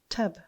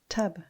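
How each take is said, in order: No difference in how they are said.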